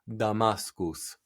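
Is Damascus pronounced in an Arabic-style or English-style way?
Arabic-style. It is pronounced with an exaggerated Arabic-style accent. The speaker wants to seem knowledgeable about the language. "you said Damascus, or some such nonsense"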